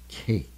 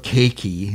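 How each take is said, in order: First: The word ends on the K sound. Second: An extra vowel is sounded at the end. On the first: The speaker calls it right. "it's just cake. So the E is silent" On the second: The speaker calls it wrong. "There's no cakey"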